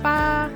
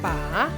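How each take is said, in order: First: The syllable is said with the first tone. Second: The syllable is said with the third tone. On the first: It means eight. "En premier temps" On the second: It means to hold. "En troisième temps"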